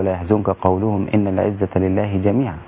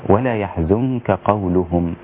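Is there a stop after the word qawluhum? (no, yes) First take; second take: no; yes. First: The phrase runs on with no stop after qawluhum. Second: The phrase stops fully after qawluhum. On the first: The following words sound like what they said. The speaker calls it wrong. "لا يجوز لك أن تقول" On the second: The following words begin a new statement. The speaker calls it right. "فوجب علي أن أقف هنا لأبين المعنى"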